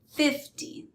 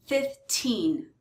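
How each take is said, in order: First: "fifty" high on "fif", weak "ty"; stress on FIF. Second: Put-on "fifteen" with long, stressed "teen". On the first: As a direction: punch the start of "fifty". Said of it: "stress is on the first syllable". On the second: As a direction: lean on the end of "fifteen". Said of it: "the stress is on the teen". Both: Shown as a demonstration.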